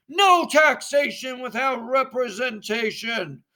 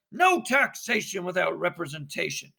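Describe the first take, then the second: First: Slogan chanted louder and higher. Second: Said in the usual way. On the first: Acted. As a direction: drive the chant home. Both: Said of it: "And then all together".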